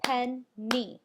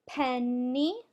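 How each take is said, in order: First: Penny cut into two loud beats, pen, nee; Penny, syllable by syllable; tapped-out syllables. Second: Penny in one piece, loud, with a long held N; penny drawn out, rising at the end; drawn-out whole word. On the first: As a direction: say Penny with a clear gap between pen and nee. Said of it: "Let's tap it out". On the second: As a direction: stretch penny into pennn-nee without a break. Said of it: "do you hear it when I say it". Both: Shown as a demonstration.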